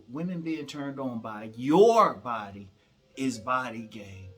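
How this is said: The word "your" gets strong stress.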